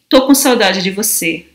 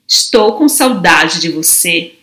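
First: The first word is shortened to one syllable. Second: The first word is said in full, two syllables.

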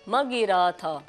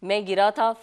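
First: The first syllable is short and runs into the next. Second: The first syllable is long, without nasal sound. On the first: It scans as fa'ilaatun. "فعلاتن کے وزن پر" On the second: It scans as faa'ilaatun. "فاعلاتن کے وزن پر ہے"

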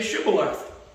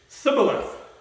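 First: The word begins with an sh sound. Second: The word begins with an s sound. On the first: The speaker belongs to the guards' group. The speaker calls it right. "say Shibboleth" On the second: The speaker belongs to the enemy group. The speaker calls it wrong. "They couldn't pronounce it right"

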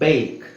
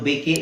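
First: The word ends on the k sound. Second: The word ends with an extra vowel sound. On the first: The speaker calls it right. "ಈ silent" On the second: The speaker calls it wrong. "ಅದು ಬೇಕೆ ಅಂತ ಹೇಳಲ್ಲ"

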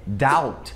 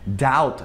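No difference in how they are said.

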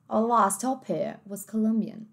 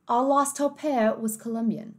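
First: It is spoken in a British English accent. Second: It is spoken in a British English accent.

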